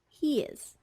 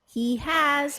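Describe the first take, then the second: First: The verb is unstressed with its H dropped. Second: Both words are said in full.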